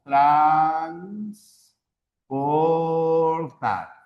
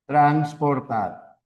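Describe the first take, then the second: First: Transportar stretched very slowly, syllable by syllable. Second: Said in the usual way. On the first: Shown as a demonstration. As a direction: drag out Transportar to show its syllables. (pronunciación muy lenta, sílaba por sílaba) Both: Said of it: "tenemos la palabra transportar".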